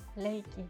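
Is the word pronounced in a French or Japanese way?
Japanese. The first sound is a Japanese L-like flap. This is how it is called in Japan. "il n'y a pas cette R à la française, donc nous, nous l'appelons Leiki"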